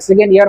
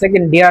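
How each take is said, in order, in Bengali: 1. 'year' শব্দটি y ধ্বনি দিয়ে শুরু হয়। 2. 'year' শব্দটি d ধ্বনি দিয়ে শুরু হয়। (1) "সঠিক উচ্চারণটা হবে সেকেন্ড ইয়ার" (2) "সেকেন্ড ইয়ার না বলে সেকেন্ড ডিয়ার বলে ফেলে"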